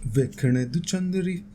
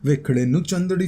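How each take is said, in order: First: Sings "तू" with a t in place of "नू"; slow, soft attempt with "तू" as the second word; misremembered lyric. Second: Sings "नू" with an n as the second word; slow, careful retry with a clear "नू"; corrected lyric. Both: Shown as a demonstration. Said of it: "मैं क्यों गलत बोल रहा हूँ?".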